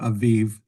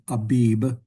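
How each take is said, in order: First: The middle consonant is a v sound. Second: The middle consonant is a b sound. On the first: This is the Hebrew pronunciation. "it's pronounced in Hebrew Aviv" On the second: This is the usual English rendering. "in English, that usually gets brought over as Abib, A B I B"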